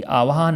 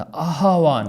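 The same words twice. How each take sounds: First: आह्वान run together as "aav-haan"; quick आह्वान, h slipped after v; wrong pronunciation. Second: आह्वान as "aah-vaan", h first; correct pronunciation. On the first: Teacher shows the faulty word, mispronounced. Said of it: "नहीं होता". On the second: Teacher corrects students, carefully emphasized. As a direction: sound a breathed h before v in आह्वान. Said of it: "आह्वान होता है". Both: Shown as a demonstration.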